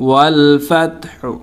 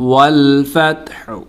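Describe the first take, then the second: No difference in how they are said.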